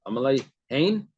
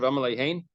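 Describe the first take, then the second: First: It is said in a sarcastic tone. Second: It is said plainly, without sarcasm. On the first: The yes really means no. The speaker calls it right. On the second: The answer is a real yes. The speaker calls it wrong.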